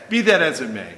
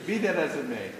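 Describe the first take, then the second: First: Laughing through words. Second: Said in the usual way. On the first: Real, not acted.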